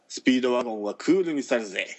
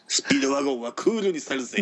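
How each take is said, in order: First: It is read flatly in the speaker's own voice. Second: It is read in an expressive imitated character voice. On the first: The speaker calls it wrong. "棒読み、棒読みです" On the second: The speaker calls it right. "そうそうそうそうなんで最初でそれせえ"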